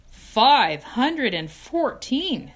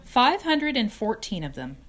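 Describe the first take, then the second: First: Slow, louder, higher awe at "Five hundred and fourteen"; amazed echo. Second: Said in the usual way. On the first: Acted. Wilbur repeats in awe.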